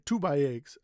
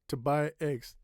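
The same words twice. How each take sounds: First: The word 'to' is said fully and clearly. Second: The word 'to' is cut short and reduced. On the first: The speaker calls it wrong. "I didn't say to buy eggs" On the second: The speaker calls it right. "That's cutting the word a little bit"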